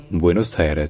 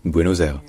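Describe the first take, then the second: First: "Buenos Aires" en quatre syllabes; prononciation espagnole. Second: "Buenos Aires" dit bwé-no-zèr; prononciation franco-française. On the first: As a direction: finir "Aires" sur rès. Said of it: "c'est vraiment en quatre syllabes". (« Buenos Aires » en espagnol, quatre syllabes) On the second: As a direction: dire "Aires" comme èr, liaison en z. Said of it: "une prononciation qui est franco-française". (« Buenos Aires » franco-français, finale èr) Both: Shown as a demonstration.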